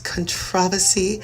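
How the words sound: It is said with a British pronunciation.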